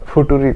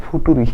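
First: The word is said with a t sound. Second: The same.

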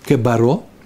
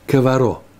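First: The middle consonant is a b sound. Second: The middle consonant is a v sound. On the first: "мы читаем кебаро" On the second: "так надо произносить"

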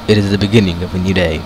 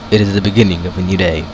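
First: It is read in a put-on narrator voice. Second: The same.

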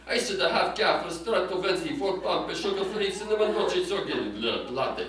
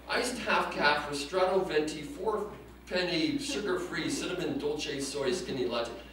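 First: It is said in a Godfather-style Italian accent. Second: It is said in his plain accent.

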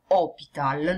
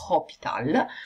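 First: The word begins directly with an O vowel. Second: The word begins with an audible H sound. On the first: The speaker calls it right. "quando pronunciate voi fate una O" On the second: The speaker calls it wrong.

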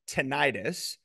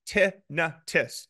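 First: It uses the common everyday pronunciation. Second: It uses the medical community's pronunciation. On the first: "Most people who have nothing to do with the medical community and don't know the pronunciation call it tinnitus" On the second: "The medical community calls it tinnitus"

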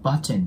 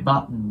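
First: The T sound is pronounced before the final N. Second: The T sound is dropped before the final N. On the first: The speaker calls it wrong. "言ってるのはあまり僕も聞いたことがない" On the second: The speaker calls it right. "TN が重なるところは基本的にT の音をなくして発音する"

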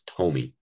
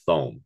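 First: The name is said as two syllables. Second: The name is said as one syllable. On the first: The speaker calls it right. "it's Tomey" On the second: The speaker calls it wrong. "If you call him Thome"

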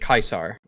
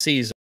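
First: The name is said the original Latin way. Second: The name is said the usual English way. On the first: This is how the man himself says it. "which is the original Latin pronunciation" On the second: This is how one faction says it. "the N C R pronounces it Caesar"

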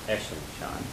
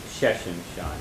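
First: The phrase begins with a vowel sound. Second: The phrase begins with an s sound. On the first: The speaker calls it right. "You have to say Eshin Shan" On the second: The speaker calls it wrong. "you can't say it's Sheshin Shan. That's not correct"

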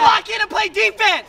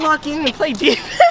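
First: It is said loudly, with force and depth. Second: It is said softly, without force or depth.

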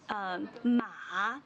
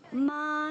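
First: The syllable has a dipping tone. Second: The syllable has a high level tone. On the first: It means horse. "but ma means horse" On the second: It means mother. "Ma means mom"

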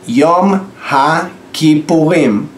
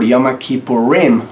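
First: It is said with a Hebrew accent. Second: It is said with an English accent.

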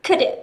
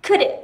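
Both takes have the same delivery.

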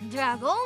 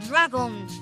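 First: The stress is on the last syllable. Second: The stress is on the first syllable. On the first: "y gritan ¡Dragón!" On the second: "Cargamos la fuerza de la pronunciación en la A"

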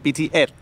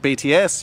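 First: BTS is said in a Thai accent. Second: BTS is said in an English accent. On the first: The speaker calls it right. "you would say BTS, because they kind of pronounce the S like that" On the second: The speaker calls it wrong. "instead of saying BTS"

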